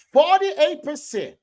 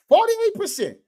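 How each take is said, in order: First: Slow emphatic stat. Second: Emphatic stat. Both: Real, not acted.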